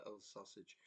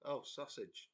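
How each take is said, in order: First: Much softer, mumbled under the breath. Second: Said in the usual way. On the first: Retold or imitated. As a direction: mumble it, barely audible, half asleep. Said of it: "I sort of mumbled it". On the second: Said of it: "Half asleep".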